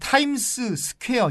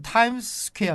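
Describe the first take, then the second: First: It is said in a Korean-style accent. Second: It is said in an American-style accent. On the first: "미국 분들이 타임스 스퀘어 이렇게 발음은 안 하겠죠" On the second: "이렇게 발음을 하겠지만"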